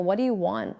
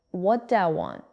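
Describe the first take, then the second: First: "What do you want" with each word distinct; careful, unreduced "What do you want"; separate words. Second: "What do I want" blended as whaddaya want; casual reduced whaddaya for "What do I"; connected speech. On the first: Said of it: "written as four separate words". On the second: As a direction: run the words into "whaddaya want". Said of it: "in natural speech, it sounds like". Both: Shown as a demonstration.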